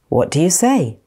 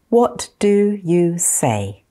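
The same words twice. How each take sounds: First: The phrase is spoken at normal speed. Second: The phrase is spoken slowly. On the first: "Then I'll say them at normal speed" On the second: "I'm going to say them slowly first"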